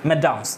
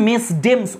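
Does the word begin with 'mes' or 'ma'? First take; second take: ma; mes. First: It is said without the 's', 'ma-dams'. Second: It is said as spelled, 'mes-dames'. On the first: The speaker calls it right. "ম্যাডামসই উচ্চারণ করি এটাকে" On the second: The speaker calls it wrong. "দেখে তো মনে হচ্ছে মেসডেমস উচ্চারণ হবে, কিন্তু মেসডেমস উচ্চারণ করি না আমরা"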